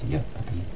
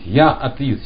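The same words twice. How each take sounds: First: The phrase is said quietly and softly. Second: The phrase is said loudly and proudly. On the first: The speaker is a little ashamed of being an atheist. "Сейчас тихо говорят" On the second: The speaker is proud of being an atheist. "Сейчас никто так не скажет громко"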